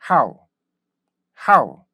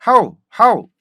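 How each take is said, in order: First: "how" as one short burst gliding down; correct English how. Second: "how" as a full open 하우; wrong Korean-style how. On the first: Teacher shows how it should be read, correct "how". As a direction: punch the onset of "how", let it fall away. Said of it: "이렇게 읽으셔야 되는데". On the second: Teacher shows how not to read it, Korean-style "how". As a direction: stiff two-vowel "how", Korean sounding. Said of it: "이렇게 읽으시면 안 돼요". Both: Shown as a demonstration.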